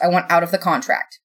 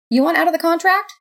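First: Said in the usual way. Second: High, rising echo of disbelief; incredulous question. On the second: A narrator's reading. God questions the roommate's demand to quit, incredulous.

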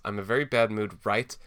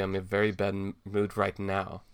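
First: RIGHT punched and cut off from what follows; misplaced exclamation. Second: Said in the usual way. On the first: Shown as a demonstration. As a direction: read "right" as if it ends the sentence. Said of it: "Exclamation point". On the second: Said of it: "it's clearly supposed to be".

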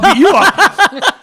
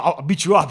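First: High, loud, drawn-out comeback; mock threat. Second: Said in the usual way. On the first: Drunk friend answers his buddy's threat, loud mock threat. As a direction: throw the threat back, laughing and hammed-up.

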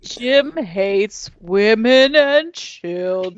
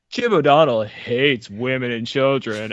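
First: Very slow, stretched words; slow-mo replay. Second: Slow, dramatic attack-ad voice; smear ad announcer. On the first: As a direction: drag each word out like slow motion. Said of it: "Let's see what Jim said in slow-mo". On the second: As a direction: read it like a smear campaign ad. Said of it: "I could just picture the smear campaign". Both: Pretend.

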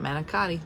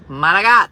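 First: Manicotti in full, man-ih-COT-ee; softer manicotti with every syllable sounded; rejected standard pronunciation. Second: Manigat, mana-GOT, loud and without final vowel; Italian-American pronunciation. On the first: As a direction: manicotti with hard c and final -ee. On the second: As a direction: belt manigat with a hard g, stressed last. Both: Shown as a demonstration. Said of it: "not manicotti".

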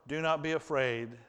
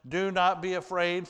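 First: Gentle reassurance. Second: Raised, firm and reassuring; firm reassurance. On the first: Joseph repeats it to his brothers, gently. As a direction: say it again gently, settling them. The same words repeated, softer. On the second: Joseph tells his brothers, raised and firm. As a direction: call it out to calm them down. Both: Acted.

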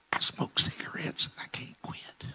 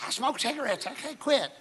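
First: Whisper. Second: Imitating her in a high, piping voice; high-pitched confession. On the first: Retold or imitated. Woman confessing to the preacher, whispered. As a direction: whisper it like an embarrassed secret. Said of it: "she s-, whispers to him". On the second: Woman repeating her confession to the preacher, high-voiced. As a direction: squeak it out, no longer whispering.

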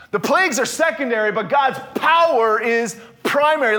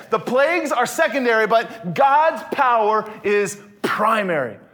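First: First take, lifted and stressed on "plagues"; emphatic statement. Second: Repeat, slowing down on "God's power is primary"; slower emphatic repeat. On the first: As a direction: state it strongly, first time through. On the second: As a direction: drive it home slowly, weighting "God's". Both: Shown as a demonstration. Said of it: "Let me say that again".

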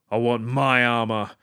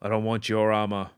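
First: "my" pushed louder and held, the key word; stress on my. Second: Said in the usual way. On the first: Retold or imitated. Quoting Boba's comeback to the bounty hunter, with "my" stressed. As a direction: lean hard on "my" in "I want my armor". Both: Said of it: "And just goes like".

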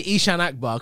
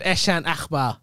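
First: "Ishan Akbar" as "EE-shan AK-bar"; anglicised "Ishan", long "ee" first; anglicised pronunciation. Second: "Eshan Akbar" as "ESH-an AKH-bar"; mock the botched "Eshan", throaty "Akh"; imitated mispronunciation. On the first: Shown as a demonstration. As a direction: say "Ishan Akbar" with flat English vowels and hard k. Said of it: "'cause I've anglicised". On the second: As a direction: mimic "Eshan Akbar" with short "Esh" start. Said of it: "No, you said".

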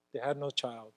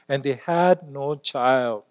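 First: "had" stressed, the repeat dropped much softer; soft echo. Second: "had" stressed, said slowly and heavily; slow emphasis. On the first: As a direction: echo "They had no child" quietly to yourself. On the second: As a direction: lean on "had" and drag the line. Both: Acted. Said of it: "repeated for weight".

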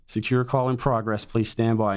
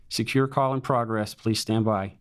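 First: Lightly imitated recorded voice, repeated evenly; automated American female voice. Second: Automated American female voice. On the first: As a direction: repeat the loop like a machine on hold. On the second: Retold or imitated. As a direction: recite it like a polite machine announcement. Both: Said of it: "this American voice in your ear saying".

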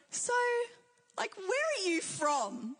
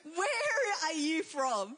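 First: Drawn-out, higher-pitched mock puzzlement; curious questioning. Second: WHERE stretched out very slowly; emphatic repeated question. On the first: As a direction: imitate a puzzled stranger asking, slowly. Imitating puzzled strangers asking her origin. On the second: Retold or imitated. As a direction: ask it very slowly, leaning on "Where". Stranger repeats the question more pointedly.

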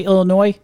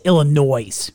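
First: Illinois ending in "noy"; Illinois, last syllable rhyming with boy; silent S in Illinois. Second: Illinois with a "noise" ending; sounded final S in Illinois. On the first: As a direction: say Illinois with the final S left silent. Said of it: "how do you say Illinois". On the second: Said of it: "I say Illinois". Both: Shown as a demonstration.

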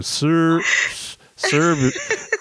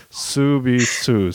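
First: Said in the usual way. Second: Slow "Subisu" trying out the Korean way of saying service; Korean-style pronunciation. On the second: Shown as a demonstration. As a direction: son repeats the mom's word, slowly testing it. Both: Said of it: "then I was kinda saying it".

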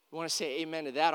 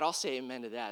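First: Quick rising call, asking the room for an amen. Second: I'll leaned on, the rest dropping low and soft; stress on I'll. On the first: Pastor prompting the congregation, quick rising call. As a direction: toss it out fast so they answer. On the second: Pastor answering his own prompt, I'll stressed, lower and softer. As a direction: answer yourself, lean on I'll and drop away. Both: Real, not acted.

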